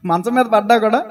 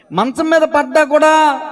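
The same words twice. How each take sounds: First: Said in the usual way. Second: Higher, slow, drawn-out "మంచం మీద పడ్డా కూడా"; "మంచం మీద పడ్డా కూడా" held high and slow, cueing the listeners; emphatic prompting repeat. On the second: Shown as a demonstration. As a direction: stretch "మంచం మీద పడ్డా కూడా" slowly on a raised pitch. Repeats it emphatically after demanding answer.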